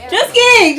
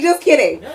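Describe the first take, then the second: First: High, loud laughing "Just kidding"; yelled "Just kidding" with a laugh; loud laughing backpedal. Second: Said in the usual way. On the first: Real, not acted. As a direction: take it back through laughter. Joke backpedal after laugh.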